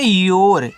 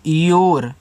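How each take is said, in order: First: योर said jor, one syllable; योर with a clear j and rolled r; plain teacher's योर; say your. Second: A low, careful योर, jor; model your. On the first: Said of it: "इसको पढ़ते हैं योर". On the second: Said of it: "इस तरीके से योर". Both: Shown as a demonstration.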